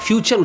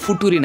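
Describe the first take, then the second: First: The middle consonant is a 'ch' sound. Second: The middle consonant is a plain 't' sound. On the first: The speaker calls it right. "এটা ফিউচার উচ্চারণ হয়" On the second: The speaker calls it wrong. "এটা কিন্তু ফুটুরি না"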